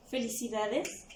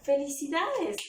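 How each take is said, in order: First: "felicidades" asked with a rising tune at the end; puzzled "felicidades?", ending up; questioning tone. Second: "felicidades" as a bright congratulation, a bit higher and louder; congratulating. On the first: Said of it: "Tienen lo de interrogación". (felicidades con tono de pregunta) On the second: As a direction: cheer someone with "felicidades". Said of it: "Si yo coloco la palabra". (felicitación alegre) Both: Shown as a demonstration.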